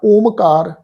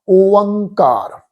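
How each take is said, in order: First: The middle has a full m consonant. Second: The middle has a nasalized vowel, no full m. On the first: The speaker calls it wrong. "इस ढंग नाल नहीं करना" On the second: The speaker calls it right. "फिर पाठ आ ओंकार"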